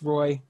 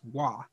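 First: The name is said like 'roy', with an r. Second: The name is said like 'wah', without an r. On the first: The speaker calls it right. "hey, it's just Roy" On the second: The speaker calls it wrong. "We spend the whole first period calling him Lucas Wah"

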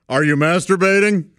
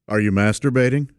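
First: It is said loudly. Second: It is said quietly.

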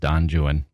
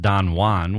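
First: Juan is pronounced the English way, like 'joo-un'. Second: Juan is pronounced the Spanish way, like 'hwan'. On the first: "Byron's Don Juan actually is Don Juan" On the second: "We all know the Spanish"

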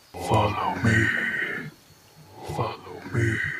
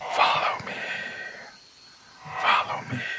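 First: It is said in a deep baritone. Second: It is said in a higher voice.

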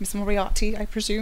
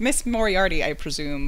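First: It is said in a British accent. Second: It is said in an American accent. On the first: "I listened to this on audio in case you can't tell" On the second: "which I think sounds so funny in an American accent"

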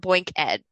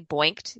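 First: It is said as two syllables, ending in 'ed'. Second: It is said as one syllable, ending in 't'. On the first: It refers to education. "or boink ed, because we're educating people" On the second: It reads as the past tense of a verb. "you could say boinked, you've been boinked"

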